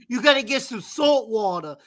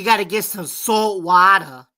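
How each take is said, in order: First: It is said in a Jersey accent. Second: It is said in a Boston accent.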